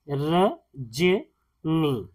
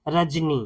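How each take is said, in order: First: रजनी very slowly as र, ज, नी; sounded out syllable by syllable. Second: Said in the usual way. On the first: Shown as a demonstration. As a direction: split रजनी into three separate sounds with pauses. Teacher sounds out the word.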